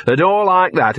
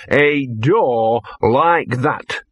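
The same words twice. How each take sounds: First: "a door like that" pitched higher, pushed out briskly; emphatic repeat. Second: Very slow, heavily drawn-out "a door like that"; portentous. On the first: Dog repeats phrase with emphasis. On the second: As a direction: stretch every word for ominous weight. Dog's final portentous repeat. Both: A narrator's reading.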